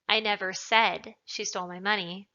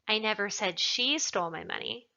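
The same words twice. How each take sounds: First: The word said carries the stress. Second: The word she carries the stress. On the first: It was implied but not said. "means that perhaps I implied it, but I didn't say it" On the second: Someone else stole it. "Perhaps somebody else stole it"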